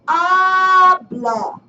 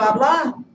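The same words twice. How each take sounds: First: The stress is on the first syllable. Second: The stress is on the last syllable. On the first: The speaker calls it right. "stress goes on the next to the last syllable, and that's why we say habla" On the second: The speaker calls it wrong. "instead of habla"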